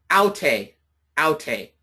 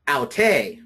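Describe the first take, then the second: First: "aute" stressed on AU, falling away on te; first-syllable stress. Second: "aute" stressed on the final TE; second-syllable stress. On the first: Teacher answering a student, "aute" accented on the first syllable. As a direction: hit the AU of "aute", twice. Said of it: "this one will be pronounced". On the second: Teacher contrasting the personal pronoun, "aute" accented on the second syllable. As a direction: lean on the last syllable of "aute". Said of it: "The personal pronoun is to pronounce". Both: Shown as a demonstration.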